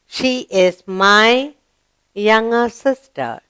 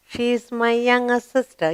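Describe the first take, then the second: First: Put-on slow, deliberate read-aloud for children; slow model reading. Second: Said in the usual way. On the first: Shown as a demonstration. Teacher modelling a sentence slowly for the class. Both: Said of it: "Yes? Good".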